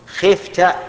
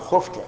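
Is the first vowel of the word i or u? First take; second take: i; u. First: The first vowel is an i sound. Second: The first vowel is a u sound. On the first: The speaker calls it wrong. "على وجه الكسر" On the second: The speaker calls it right. "نقول بالضم"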